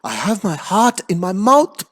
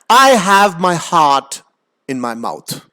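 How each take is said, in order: First: It is said in a frightened, scared tone. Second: It is read in a plain, neutral tone.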